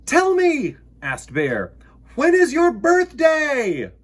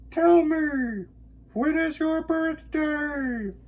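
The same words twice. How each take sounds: First: High, loud eager bear voice; eager little bear asking; Bear's question. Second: Echo. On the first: Bear asks the moon. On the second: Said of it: "his own voice echoed off". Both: Acted.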